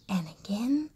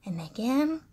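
The two takes are said the same way.

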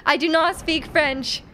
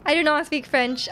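First: Slow, firm denial. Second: Said in the usual way. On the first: Real, not acted. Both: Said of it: "I'm sorry".

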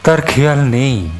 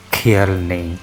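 First: "তার খেয়াল নেই" lifted, then falling; emphatic recited statement. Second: "খেয়াল নেই" dropped low, as an echo; subdued echo. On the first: Poet watching a small boy in mud, emphatic "তার খেয়াল নেই". Line repeated for poetic effect. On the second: Poet echoing himself about the boy, subdued low "খেয়াল নেই". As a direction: let খেয়াল নেই sink into a low afterthought. Line echoed lower after pause. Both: Acted.

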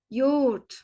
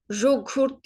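First: "Yoğurt" starting with Y, g softened away; correct reading. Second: "jogurt" with a French-style zh and hard g; wrong reading. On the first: Teacher shows the correct reading, "Yoğurt" as yo-urt. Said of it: "Y diye okuduk". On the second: Teacher shows what not to say, "jogurt" with zh and g. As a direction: misread "jogurt" letter by letter, zh first. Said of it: "diye okumuyoruz". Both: Shown as a demonstration.

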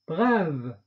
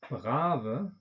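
First: 'brave.' said the French way, bʁav with a released voiced v; French 'brave.' with no schwa. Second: 'Brave' said the German way, with a final schwa, bʁavə; German 'Brave' with a trailing schwa; German-style. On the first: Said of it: "französischen Aussprache mit Detente". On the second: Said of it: "deutsche Aussprache ... Schwarlaut". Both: Shown as a demonstration.

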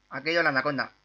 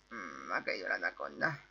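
First: Said in the usual way. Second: Much lower, softer voice; low-voiced repeat. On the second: Gamer echoing news of the fallen anaconda, low and soft.

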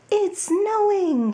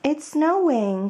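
First: Higher, slow, drawn-out joyful cry; excited cry. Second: Higher, lighter call to a friend; Bunny calls Mole out to play; excited cry. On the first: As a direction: Mole shouts his delight at the snow. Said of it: "he cried". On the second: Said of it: "cried Bunny". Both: Acted.

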